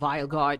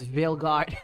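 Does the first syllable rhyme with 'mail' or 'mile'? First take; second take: mile; mail. First: The first syllable rhymes with 'mile'. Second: The first syllable rhymes with 'mail'. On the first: The speaker calls it wrong. "It's not Vile God" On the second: The speaker calls it right. "it's Veil God"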